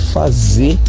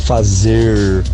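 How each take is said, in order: First: The final R sound is dropped. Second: The final R sound is pronounced. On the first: "eu tô comendo o R dos verbos no final" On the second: "e não"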